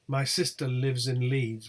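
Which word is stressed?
none. No single word gets special contrastive emphasis. Nothing is being contrasted. "would be the default uh, pronunciation"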